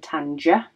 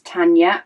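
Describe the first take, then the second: First: The middle consonant is a hard j sound. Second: The middle consonant is a soft y sound. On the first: The speaker calls it wrong. "rather than Tanja" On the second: The speaker calls it right. "pronounced as Tanya with a Y instead of a J"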